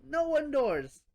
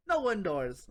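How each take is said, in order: First: NO punched high and loud; scolding emphasis on No; emphatic. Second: Said in the usual way. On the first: Acted. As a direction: hit the word No hard and up.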